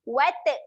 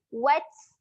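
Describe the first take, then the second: First: The final t bounces with a vowel-like release. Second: The final t releases only a puff of air. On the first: The speaker calls it wrong. "ah water salah" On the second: The speaker calls it right. "Dia bunyi keluar angin saja"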